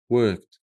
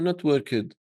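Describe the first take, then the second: First: The ending is pronounced as a short 't'. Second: The ending is pronounced as a full 'ed'. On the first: The speaker calls it right. "it's pronounced as a t" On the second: The speaker calls it wrong. "you do not pronounce the ed"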